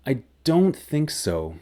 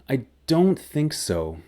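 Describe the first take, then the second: First: The voice sounds hesitant and unsure. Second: The voice sounds hesitant and unsure.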